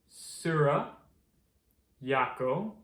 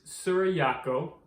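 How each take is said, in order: First: The words are said slowly and carefully. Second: The words are said at normal, quick speed.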